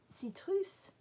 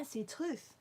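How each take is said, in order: First: "citrus" said as see-TROOS, much higher pitched; s at the end. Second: "citrus" said as see-TROOTH, higher pitched; th at the end. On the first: Trying the colour name after being corrected, s at the end. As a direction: end "citrus" on a clear S, not TH. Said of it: "it's S at the end". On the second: Trying out a viewer's correction, th at the end. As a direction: end "citrus" on a TH sound, as in truth. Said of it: "with a T H at the end". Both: Shown as a demonstration.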